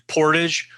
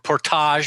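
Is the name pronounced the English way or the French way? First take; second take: English; French. First: The name is said with an English pronunciation. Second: The name is said with a French pronunciation.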